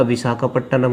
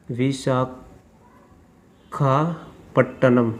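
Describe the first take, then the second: First: Said in the usual way. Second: Visakhapatnam broken into pieces with long pauses; slow dictation. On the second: Real, not acted. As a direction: say Visakhapatnam very slowly, as if writing it down. Spelling out city while writing. (Visakhapatnam को टुकड़ों में, रुक-रुककर बोलना)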